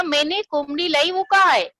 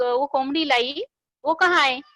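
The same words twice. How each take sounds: First: Husband yelling, rising to a shout at the end; mock angry shout at the wife. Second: Said in the usual way. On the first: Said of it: "चिल्ला के बोला". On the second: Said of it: "बीवी को पूछ रहा था".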